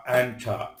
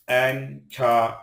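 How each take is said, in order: First: Said in the usual way. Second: "enter" in two separate, drawn-out syllables; "enter" with a gap mid-word; split syllables. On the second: Shown as a demonstration. Word split by syllable, then whole.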